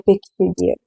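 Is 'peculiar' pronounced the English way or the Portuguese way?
English. The word is read with English sounds. The speaker calls it right. "mas a pronúncia correta é peculiar"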